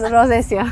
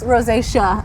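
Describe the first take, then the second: First: The word is said with Spanish pronunciation. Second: The word is said with English pronunciation. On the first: "you made me want to say it in Spanish" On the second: "in my English accent"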